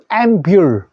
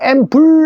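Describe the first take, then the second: First: The second syllable has a 'yu' sound. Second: The second syllable has a plain 'u' vowel. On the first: The speaker calls it right. "유" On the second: The speaker calls it wrong. "우가 아니고 앰불 아니고"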